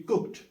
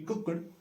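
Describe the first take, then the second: First: The ending is sounded as a T. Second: The ending is not sounded as a T. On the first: The speaker calls it right. "the last letter has to be pronounced as T" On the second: The speaker calls it wrong. "it will not be cooked"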